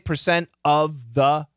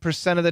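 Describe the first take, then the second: First: The word 'of' has a full short U vowel. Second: The word 'of' has a reduced schwa vowel. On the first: "we could say percent of the" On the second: "almost always schwa"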